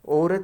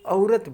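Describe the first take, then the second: First: The first vowel is one steady sound. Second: The first vowel glides from 'a' to 'u'. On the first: This is the standard Hindi pronunciation. The speaker calls it wrong. "औरत नहीं बोलते, वो सिर्फ हिंदी में बोलते हैं" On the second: This is the Khortha pronunciation. The speaker calls it right. "आ उ रत, औरत बोलते हैं खोठा में"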